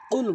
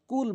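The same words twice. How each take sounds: First: "কুল" as qul, q from the tongue root; correct deep Q. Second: "কুল" with an ordinary front k; mistaken light K. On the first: Teacher correcting the common error, deep q "কুল". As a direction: strike the start of "কুল" at the back palate. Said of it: "কুল বলতে হবে". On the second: Teacher showing what most people wrongly say, light k "কুল". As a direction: say "কুল" like kul, k instead of q. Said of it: "অধিকাংশ লোক কুল বলার ফলে". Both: Shown as a demonstration.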